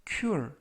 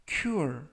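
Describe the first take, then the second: The two takes are said the same way.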